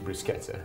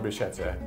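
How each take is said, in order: First: The middle consonant sounds like 'k'. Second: The middle consonant sounds like 'sh'. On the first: The speaker calls it right. "C H in Italian is pronounced K. Okay. So it's it's actually" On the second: The speaker calls it wrong. "It's spelled bruschetta"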